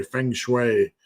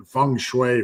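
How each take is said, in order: First: "Feng Shui." said as fing shway; alternate pronunciation. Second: "Feng Shui," said as fung shway; alternate pronunciation. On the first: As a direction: say "Feng Shui." with a short i in the first word. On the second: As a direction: slowly say "Feng Shui," with an uh in the first word. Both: Shown as a demonstration. Tries two pronunciations in turn.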